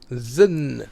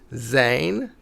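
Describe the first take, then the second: First: The vowel is reduced to almost nothing. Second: The word has a full vowel sound. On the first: This is the more casual, natural way of speaking. "shifts to zn" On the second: This is the more official way of speaking. "zijn sound shifts to"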